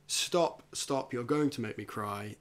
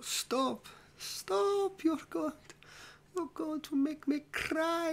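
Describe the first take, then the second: First: It is read in the speaker's own plain voice. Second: It is said in an exaggerated put-on character voice. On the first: This is just the scripted line. "but that's the line" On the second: This is how the actor delivered the line. "This is how he says it"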